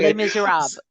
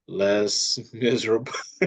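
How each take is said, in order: First: "Les Miserables" said clearly and louder, ending fully spoken; correct pronunciation. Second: "Les Miserables" said haltingly, the ending swallowed; mispronounced. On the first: Shown as a demonstration. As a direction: model "Les Miserables" cleanly and confidently. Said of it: "See, I was gonna screw that". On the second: Real, not acted. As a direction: stumble slowly over "Les Miserables". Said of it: "I was gonna chop that up bad".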